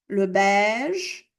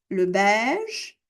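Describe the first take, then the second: Both takes have the same delivery.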